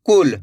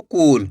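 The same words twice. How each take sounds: First: कुल with a short, quick u; short quick vowel. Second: कूल with a long, stretched oo; drawn-out vowel. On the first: Teacher shows learners the short vowel, कुल said quickly. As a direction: say कुल briskly, without stretching the u. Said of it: "तेजी के साथ उच्चारण करना है". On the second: Teacher warns learners not to read it so, कूल with long oo. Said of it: "खींच के पढ़ा जा रहा कूल". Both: Shown as a demonstration.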